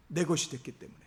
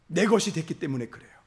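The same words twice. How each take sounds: First: "내 것이 됐기 때문에" repeated much softer, letting it sink in; soft echo. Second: Said in the usual way. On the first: Real, not acted. Pastor echoing the point to the congregation, softly. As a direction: drop the voice and echo it quietly.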